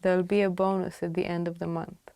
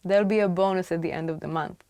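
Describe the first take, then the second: No difference in how they are said.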